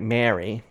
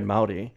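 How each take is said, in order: First: The word is said as anglicized 'Mary'. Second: The word is said with a Maori-like pronunciation. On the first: This is how older generations said the word. "might offend some people, but might say something like Mary" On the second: This is how the word is said now. "so even the word Maori before"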